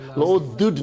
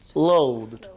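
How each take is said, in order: First: An extra vowel comes before the final D. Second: The ending is a plain D, one syllable. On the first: The speaker calls it wrong. "no. Don't bring E in between" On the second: The speaker calls it right.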